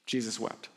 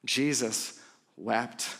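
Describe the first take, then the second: First: Low, hushed and grave; softer, lower, solemn delivery. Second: Slow, low, hushed repeat; slow and grave, a hushed hush; drawn-out, softer, lower solemn repeat. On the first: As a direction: drop low and let it land. Pastor lands the unexpected moment. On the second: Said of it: "this is the unexpected moment". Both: Real, not acted.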